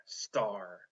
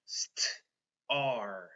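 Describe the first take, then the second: First: Said in the usual way. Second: "St-, R" as blend st, pause, then ar; sounded out. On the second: Shown as a demonstration. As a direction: split "St-, R" into st and a held ar. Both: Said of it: "I have a blend".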